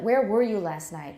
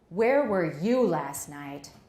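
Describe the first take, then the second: First: The word 'you' carries no special stress. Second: The word 'you' carries the main stress. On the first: It is a neutral question. "is more unmarked" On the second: The question targets this particular person. "那针对你"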